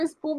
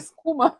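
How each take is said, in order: First: A p sound follows the s. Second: A k sound follows the s. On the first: "ele não falava espuma" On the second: "ele falava escuma"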